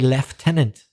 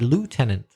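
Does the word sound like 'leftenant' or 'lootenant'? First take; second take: leftenant; lootenant. First: The first syllable sounds like 'left'. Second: The first syllable sounds like 'loo'. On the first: This is the Canadian and British way. "in Canada, they used to say lieutenant" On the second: This is the American way. "whereas in the U S A, they said lieutenant"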